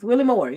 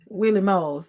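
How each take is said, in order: First: The R sound in the name is pronounced. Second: The R sound in the name is dropped. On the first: "I said the R" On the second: "That's how you say it though"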